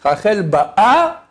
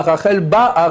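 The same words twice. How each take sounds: First: Ba'a very slow and rising, stress on the last syllable, ba-Á; present-tense stress. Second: Ba'a falling, stress on the first syllable, BÁ-a; past-tense stress. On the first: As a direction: draw out Rachel Ba'a meaning she arrives. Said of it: "elle arrive". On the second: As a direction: say Rachel Ba'a meaning she came. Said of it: "Rachel est venue". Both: Shown as a demonstration.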